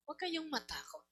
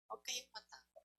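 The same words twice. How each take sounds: First: Reassuring. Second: Quieter reassurance. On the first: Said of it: "repeated reassurance". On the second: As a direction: say it again almost under the breath. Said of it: "repeated softer". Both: Real, not acted.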